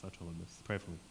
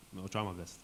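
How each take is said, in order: First: Softer, murmured to himself; quiet resolve. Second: Said in the usual way. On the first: Real, not acted. Losing his voice, he promises the class quietly. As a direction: say it again under your breath, resigned. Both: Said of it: "anyone have lozenges or something?".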